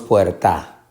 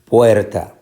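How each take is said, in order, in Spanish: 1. La sílaba tónica es la última. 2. La sílaba tónica es la primera. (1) "Decimos puerta o decimos puerta" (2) "Decimos puerta. Por lo tanto, puerta es una palabra llana"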